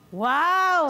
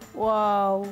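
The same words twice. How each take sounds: First: It is said with an angry tone. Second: It is said with a sad tone.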